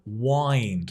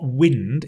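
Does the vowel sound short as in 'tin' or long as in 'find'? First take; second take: long; short. First: The vowel is long, as in 'find'. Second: The vowel is short, as in 'tin'. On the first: The speaker calls it right. "Like winding your clock" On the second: The speaker calls it wrong. "it's not wind"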